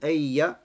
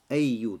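First: The word ends in an "a" vowel. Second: The word ends in a "u" vowel. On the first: The word works as an adverb of time. "фатха в конце" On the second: The word works as the subject. "с даммой, марфу"

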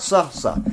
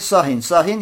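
First: Each word ends abruptly with no added vowel. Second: Each word ends with an added -in sound. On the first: Stop saying this particular thing. "са-са с сукуном" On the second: Be silent altogether. "С танвином, кесрой, сахин-сахин"

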